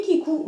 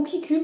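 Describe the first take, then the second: First: Kiku said "kee-koo", ending in an oo sound; English pronunciation. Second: Kiku said "kee-kü", ending in a French u; French pronunciation. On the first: (Kiku prononcé à l'anglaise, « kikou ») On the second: (Kiku prononcé à la française, « kiky ») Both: Shown as a demonstration. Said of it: "je sais pas trop comment ça se prononce".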